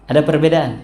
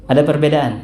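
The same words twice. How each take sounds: Both takes have the same delivery.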